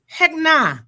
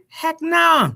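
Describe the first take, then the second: First: High, loud New York refusal; emphatic mock New York voice. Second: Said in the usual way. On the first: Shown as a demonstration. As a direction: put on a punchy New York accent. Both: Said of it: "put on my New York voice".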